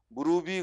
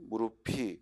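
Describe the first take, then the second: First: The linked consonant sounds like a soft b. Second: The linked consonant sounds like an aspirated p. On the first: The speaker calls it wrong. "그러면 안 되지" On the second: The speaker calls it right. "무릎에 받침은 피읍이죠"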